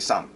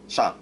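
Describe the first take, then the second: First: The word begins with a plain s sound. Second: The word begins with a sh-like sound. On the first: The speaker calls it wrong. "most people just say "sang,"" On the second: The speaker calls it right. "not "shang.""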